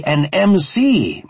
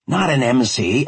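First: M C slow, higher and louder, letters spelt; stress on M C. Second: Said in the usual way. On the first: Shown as a demonstration. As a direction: spell out "M C" slowly and loud. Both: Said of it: "Not an M C, an M C".

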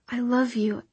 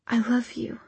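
First: Said in the usual way. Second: Breathy whispered confession. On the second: A narrator's reading. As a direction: whisper it against him. Hushed confession while embracing him.

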